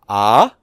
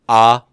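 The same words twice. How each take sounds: First: The pitch rises. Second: The pitch stays level. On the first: "indicating a rising tone" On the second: "not just ah"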